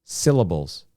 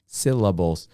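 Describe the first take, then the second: No difference in how they are said.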